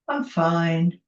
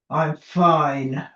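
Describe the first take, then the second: First: The tone sounds flat and lukewarm. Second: The tone sounds upset and displeased. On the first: Things are only average. "Which means it's sort of average, maybe it could be better, could be worse" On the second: Things are clearly not fine. "the tone of voice you can hear. Lynn clearly isn't fine"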